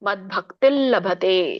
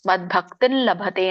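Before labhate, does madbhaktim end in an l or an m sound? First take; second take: l sound; l sound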